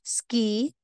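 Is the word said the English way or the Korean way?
English. It is said with English pronunciation. "sa English"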